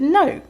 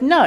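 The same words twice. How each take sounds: First: "No." said higher and harder; repeating the refusal with a sharp high "No."; firm refusal. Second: Said in the usual way. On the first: Retold or imitated. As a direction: put a sharp high stress on "No.". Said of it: "I said". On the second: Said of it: "And so I said".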